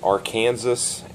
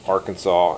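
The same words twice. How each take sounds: First: The word is pronounced just as it is spelled. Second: The word is pronounced in its usual established way. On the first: This is a spelling-based pronunciation. The speaker calls it wrong. "I just pronounce it the way it's spelled" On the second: This is the accepted pronunciation. The speaker calls it right. "it's Arkansas"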